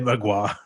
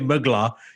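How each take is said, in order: First: The name is said the native Polish way. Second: The name is read the anglicized way. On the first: The speaker calls it right. "you say Magua" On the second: The speaker calls it wrong. "you don't say Mugla"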